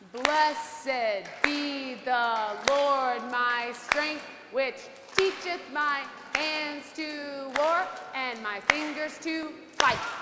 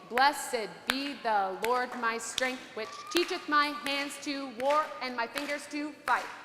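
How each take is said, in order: First: It is said slowly. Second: It is said at normal speed.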